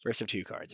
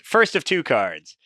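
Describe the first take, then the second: First: Much softer, under the breath; quiet repeat. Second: Said in the usual way. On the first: Real, not acted. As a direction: echo it quietly to yourself. Repeats it softly to himself.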